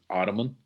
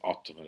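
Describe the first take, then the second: First: It is said with an American pronunciation. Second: It is said with a non-American pronunciation. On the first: "the American way of saying is Ottoman" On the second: "I learned it as Ottoman"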